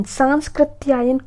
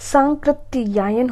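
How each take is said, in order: First: सांस्कृत्यायन with an extra s, 'saans-krit'; wrong pronunciation. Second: सांकृत्यायन as 'saan-krit-yaayan'; correct pronunciation. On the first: Teacher showing the mistake, extra s in सांस्कृत्यायन. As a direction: put s before k in सांस्कृत्यायन. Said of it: "कुछ नहीं होता है". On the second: Teacher correcting students, no middle s in सांकृत्यायन. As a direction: go from nasal straight to k in सांकृत्यायन. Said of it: "सांकृत्यायन होता है". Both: Shown as a demonstration.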